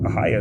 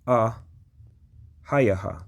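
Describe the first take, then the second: First: It is said as three short syllables. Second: It is said as four syllables ending in 'ha'. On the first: The speaker calls it wrong. "Ahia is not even the proper pronunciation of this phrase" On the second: The speaker calls it right. "It is ah hayaha"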